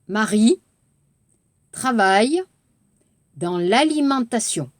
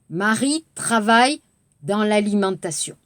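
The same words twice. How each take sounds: First: The sentence is said slowly. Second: The sentence is said fast.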